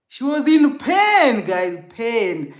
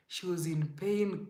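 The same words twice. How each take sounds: First: Much higher and louder, slower, stressing pain; anguished outburst; anguished emphasis. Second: Softer, falling, subdued; subdued echo of the outburst; quiet repeat. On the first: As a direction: cry out the word pain. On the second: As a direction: let it sink back down. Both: Real, not acted.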